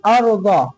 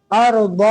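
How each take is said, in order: First: "अर्द" with a short, falling end; not drawn out. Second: "अर्द" with the last sound lengthened; wrongly drawn out. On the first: Teacher correcting the reading, short end on "अर्द". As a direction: end "अर्द" promptly without stretching it. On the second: Teacher showing what to avoid, drawn-out end of "अर्द". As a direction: let the end of "अर्द" drag on. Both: Shown as a demonstration. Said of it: "खींचेंगे नहीं".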